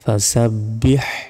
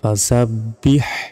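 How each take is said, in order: First: The word ends with an audible h sound. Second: The word ends with an audible h sound.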